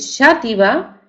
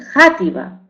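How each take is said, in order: First: The word begins with a soft 'sh' sound. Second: The word begins with a harsh throaty 'j' sound. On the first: This is the older pronunciation of the letter X. "pronunciamos eh, ese término Shativa con X" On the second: This is the later pronunciation, with X turned into J. "o Játiva"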